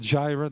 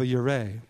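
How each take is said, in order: First: The word begins with an English J sound. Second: The word begins with a Y sound. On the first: The speaker calls it wrong. "that's the way we would say it, the English transliteration" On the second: The speaker calls it right. "it's Jehovah Yireh"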